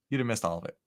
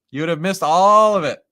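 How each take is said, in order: First: Said in the usual way. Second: ALL stretched out and louder; stress on ALL. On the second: Real, not acted. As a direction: lean long and hard on ALL. Repeats the line for emphasis.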